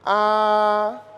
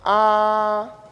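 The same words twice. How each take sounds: First: The pitch stays level throughout. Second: The pitch stays level throughout.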